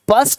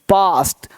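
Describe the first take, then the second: First: The vowel is a short 'uh' sound. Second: The vowel is a long 'ah' sound. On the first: The speaker calls it wrong. "पस्ट नहीं" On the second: The speaker calls it right. "यहां पे क्या sound आ रहा है? आ।"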